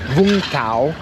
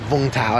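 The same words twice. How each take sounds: First: The name is said with Vietnamese pronunciation. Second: The name is said with English-style pronunciation. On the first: The speaker calls it right. "the city's actually pronounced Vung Tau" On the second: The speaker calls it wrong. "the you know anglicized pronunciation sounds like Vung Tau"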